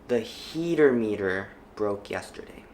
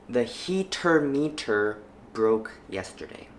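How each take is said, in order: First: The T sounds are soft flaps. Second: The T sounds are clear, not flapped. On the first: "the second time, I will flap the sentence" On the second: "The first time I read each sentence, I will not flap them"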